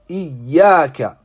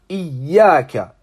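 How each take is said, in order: Both takes have the same delivery.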